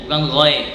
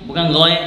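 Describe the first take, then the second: The two takes are said the same way.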